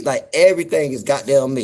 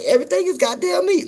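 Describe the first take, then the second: First: Said in the usual way. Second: Much higher mock Southern voice; mock Southern pitch; Southern phrase. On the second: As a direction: squeal it like the locals.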